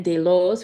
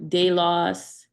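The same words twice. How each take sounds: First: Delos ending in a long "-ohs". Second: Delos ending in an open "-oss"; short-o ending. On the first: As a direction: say delos as "day-LOHS". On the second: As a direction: say delos as "DAY-loss", drawn out. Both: Shown as a demonstration. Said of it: "Again, delos for clearly".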